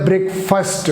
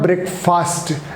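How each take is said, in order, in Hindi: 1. आखिरी syllable 'first' जैसा लगता है। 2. आखिरी सिलेबल 'fast' जैसा लगता है। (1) "फास्ट की जगह क्या बोलेंगे, फर्स्ट बोलेंगे" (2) "बट इट्स नॉट ब्रेकफास्ट"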